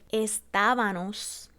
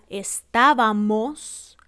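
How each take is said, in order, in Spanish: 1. La terminación tiene sonido n. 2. La terminación tiene sonido m. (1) "cambiamos la M por la N" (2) "la correcta que sería estábamos"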